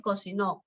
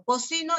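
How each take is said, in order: First: "cocinó" hit on the last syllable; stress on NÓ of cocinó. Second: "cocino" hit on the middle syllable; stress on CI of cocino. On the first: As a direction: lean on NÓ in "cocinó". (acento final en NÓ de «cocinó») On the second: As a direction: lean on CI in "cocino". (acento en CI de «cocino») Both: Shown as a demonstration. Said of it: "el acento cumple función distintiva".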